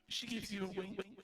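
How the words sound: It is said in a put-on character voice.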